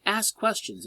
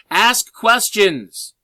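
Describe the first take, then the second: First: Said in the usual way. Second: Loud and slow, every word stretched out; emphatic shout. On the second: Shown as a demonstration. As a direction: shout it at the class like the one thing they forgot. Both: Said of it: "there's one thing I'm missing".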